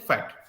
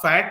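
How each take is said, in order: First: The vowel is said short and quick. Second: The vowel is stretched out long. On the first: The speaker calls it right. "आप बोलते हैं फैट" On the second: The speaker calls it wrong. "आप फैट नहीं बोलते"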